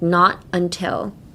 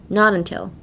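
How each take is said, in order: First: The two words are said separately. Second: The two words run together as one. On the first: The speaker calls it wrong. "Don't be like not until" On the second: The speaker calls it right. "make it into one word. Be like not until"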